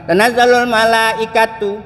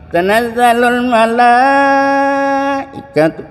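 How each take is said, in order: First: The vowel after 'l' in malaikatu is short. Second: The vowel after 'l' in malaikatu is lengthened. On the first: The speaker calls it wrong. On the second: The speaker calls it right. "Malaikat itu mat wajib tuh"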